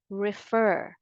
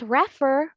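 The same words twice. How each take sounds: First: "refer" said slowly re-FER, the stress on the second syllable; correct stress. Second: "refer" said RE-fer, the stress wrongly on the first syllable. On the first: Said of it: "but refer". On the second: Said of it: "Not refer". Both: Shown as a demonstration.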